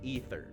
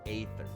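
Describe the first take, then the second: First: The word begins with an 'ee' sound. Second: The word begins with an 'ay' sound. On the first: The speaker calls it right. "It's pronounced ether" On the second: The speaker calls it wrong. "But one hundred percent of people say aether"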